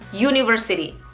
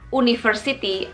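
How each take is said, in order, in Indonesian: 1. Kata ini diawali dengan bunyi y. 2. Kata ini diawali dengan bunyi vokal biasa. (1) "tapi bunyinya university" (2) "Bunyinya bukan university"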